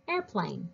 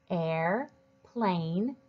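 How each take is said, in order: First: Said in the usual way. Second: "air", pause, "plane", each drawn out; split into parts. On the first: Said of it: "read the longer word like this". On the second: Shown as a demonstration. Teacher shows readers how to build a longer word, split into parts. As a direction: say "air" and "plane" as two separate words. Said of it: "use it to help us read the longer word like this".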